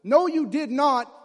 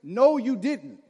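First: Slow, louder "No, you did not" with a high stressed "No"; drawn-out, louder shocked "No, you did not". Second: Slow, louder "No, you didn't" with a falling "No"; sassy mom phrase. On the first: Boy recalling the shocked catchphrase, slow and louder. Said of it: "I was the one who was shocked". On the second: Mom's sassy catchphrase, slow and louder. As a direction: lean on "No" and drag it out, a touch louder. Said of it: "I heard that phrase". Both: Retold or imitated.

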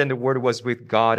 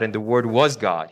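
First: "Word" lifted and leaned on; stress on Word. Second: "was" pressed, falling to "God"; stress on was. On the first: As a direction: put the weight on "Word" as you recite. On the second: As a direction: land hard on "was". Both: Shown as a demonstration.

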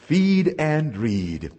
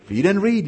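First: Feed and read, said very slowly with weight on feed; slow deliberate motto; slow, drawn out. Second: Said in the usual way. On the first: Shown as a demonstration. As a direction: stretch out feed and read so it sinks in.

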